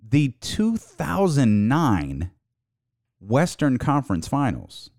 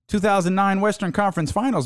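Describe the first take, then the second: First: It is said slowly. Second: It is said at a normal speed.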